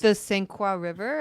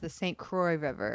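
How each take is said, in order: First: Croix is said with a 'wa' vowel sound. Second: Croix is said with an 'oy' vowel sound.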